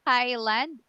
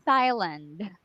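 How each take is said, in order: First: "Thailand" with a hard T, h silent; "Thailand" starting on a clean T sound; Thai pronunciation of Thailand. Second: "Thailand" with a TH sound at the start; foreigner's Thailand. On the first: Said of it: "you pronounce it as". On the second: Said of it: "they say it as, like". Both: Shown as a demonstration.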